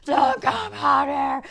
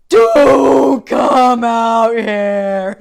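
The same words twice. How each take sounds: First: Stretched-out, high, loud yell; slow retold scream, a little less huge; re-enacted scream. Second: Drawn-out slow-motion bellow; very loud, slow-mo retold yell; gut scream. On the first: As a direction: holler it in comic slow motion. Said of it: "my screaming at him". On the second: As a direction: re-enact a huge scream from the gut, every word stretched. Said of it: "I screamed really loud, like, from the gut".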